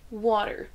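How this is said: It is said with an American accent. "c'est l'accent américain"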